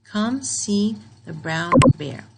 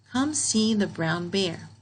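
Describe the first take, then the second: First: Slow and louder, like an order; firm command. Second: Slow, even read of the sentence; calm slow model reading. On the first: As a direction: tell them to come, firmly. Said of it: "so this is a command". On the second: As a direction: read it out slowly, word by word. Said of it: "Here it's telling you to come see the bear". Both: Shown as a demonstration.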